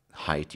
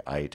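First: Said in the usual way. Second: "ite" said with no H at the start; Cockney h-dropping. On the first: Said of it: "So instead of saying height". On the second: Shown as a demonstration. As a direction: drop the H: "ite", just the vowel. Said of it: "you would say".

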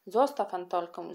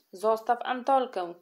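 First: A firm call, mildly raised; a boy calls on Kasia to let Antolka go. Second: Higher, louder echo of the demand; the children back up the boy, calling out in chorus. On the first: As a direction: step in to stop her. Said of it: "zawołał". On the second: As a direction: several kids chime in together. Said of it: "Kilkoro dzieci zaraz mu zawtórowało". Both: Acted.

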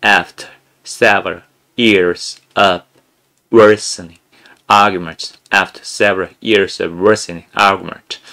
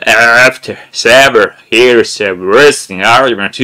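First: Very slow, over-articulated reading; sound-English style. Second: Slow, loud, drawn-out "After several years of worsening argument"; old-school sound English. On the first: Teacher demoing the sound-English method, drawn-out exaggerated reading. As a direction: stretch every word of "After several years of worsening argument" out slowly. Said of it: "윤성호 영어식으로 하면". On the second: Teacher imitating old learners' drill, loud and slow. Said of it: "이런 식으로 했어요". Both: Shown as a demonstration.

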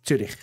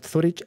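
First: Zürich said the German way, ts at the start and ü like French u. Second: Zurich spoken as Spaniards say it, th-u-rich; Spanish Zurich. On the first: Swiss vlogger correcting the Spanish name, German pronunciation. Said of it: "es Zürich". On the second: Swiss vlogger showing the wrong Spanish way, Spanish pronunciation. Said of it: "No es Zurich". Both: Shown as a demonstration.

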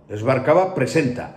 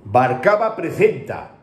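First: "presenta" said with a clean plain s, not a lisp; correct plain s. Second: "Barcaba presenta" with a lisped th in "presenta", slowed down; mocking lisped s. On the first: ("presenta" con s normal, sin cecear) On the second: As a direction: imitate the forced lisp on "presenta": preθenta. ("presenta" pronunciado con ceceo forzado, /preθenta/) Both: Shown as a demonstration. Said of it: "No, es Barcaba presenta".

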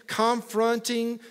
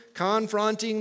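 First: Slow, stretched Alabama "confronting"; Alabama accent. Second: Said in the usual way. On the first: Real, not acted. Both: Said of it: "that's my worst Alabama accent ever".

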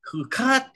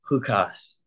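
First: Chukat with a final t, Sephardic style. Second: Chukas with a final s, Ashkenazi style. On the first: Teacher contrasting the two pronunciations, Sephardic Chukat. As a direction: say Chukat ending in a crisp t. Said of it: "I say". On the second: Teacher contrasting the two pronunciations, Ashkenazi Chukas. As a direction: say Chukas ending in an s. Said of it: "you say". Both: Shown as a demonstration.

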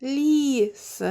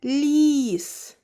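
First: Ліс again with each sound clear; Ліс said once more, sounds separated; every sound heard. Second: Ліс with л, і, с each clearly sounded; Ліс said slowly, every sound distinct; every sound heard. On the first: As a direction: repeat with each sound distinct. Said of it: "І ще раз". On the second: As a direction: spell it out in sound. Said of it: "Так, щоб було чути всі звуки". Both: Shown as a demonstration.

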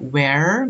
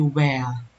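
First: Where with a clear final r; rhotic where. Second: Where with no r at the end, WEH; non-rhotic where. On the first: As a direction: sound the r at the end of where. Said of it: "itu yang rhotic". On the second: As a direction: drop the r in where. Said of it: "non-rhotic berarti where". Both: Shown as a demonstration.

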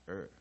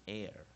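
First: "air" said as a central er sound. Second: "air" said with an open e gliding to r; air sound. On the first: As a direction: pronounce "air" like the vowel in her. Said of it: "其实念起来有点像". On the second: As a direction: pronounce "air" to rhyme with care. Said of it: "或者是air". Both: Shown as a demonstration.

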